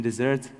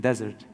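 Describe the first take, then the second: First: First "desert" said di-ZERT, like the sweet; dessert pronunciation. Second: Second "desert" said DEZ-ert, like the sands; desert pronunciation. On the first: Filmmaker correcting his English, "desert" as di-ZERT. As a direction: stress the second syllable of "desert". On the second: Filmmaker correcting his English, "desert" as DEZ-ert. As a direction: stress the first syllable of "desert". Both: Retold or imitated. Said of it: "there is difference between desert and desert".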